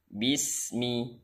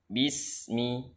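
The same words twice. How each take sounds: No difference in how they are said.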